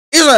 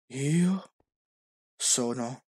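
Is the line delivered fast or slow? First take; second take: fast; slow. First: It is said quickly and with little intensity. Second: It is said slowly and very intensely. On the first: "troppo veloce adesso" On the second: "buona, ma troppo intenso, un po' più veloce"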